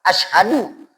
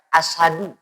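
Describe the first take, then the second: First: The middle has 'sh' followed by a clear 'h'. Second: The middle has a plain 's' and no 'h'. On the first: It means I bear witness. The speaker calls it right. "ini tepat" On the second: It means lion. The speaker calls it wrong. "kita ringankan bacaannya"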